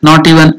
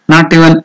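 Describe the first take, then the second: No difference in how they are said.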